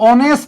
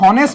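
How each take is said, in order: First: The word starts directly with a vowel sound. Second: The word starts with an audible h sound. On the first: The speaker calls it right. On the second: The speaker calls it wrong.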